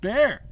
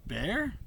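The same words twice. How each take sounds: First: High, loud cry of a name; desperate shout. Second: High, rising call of a name; questioning call. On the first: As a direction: cry out to get through to someone. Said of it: "Desperate desperation clung to my voice". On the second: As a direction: call out, unsure of an answer. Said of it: "desperation clung to my voice". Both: A narrator's reading.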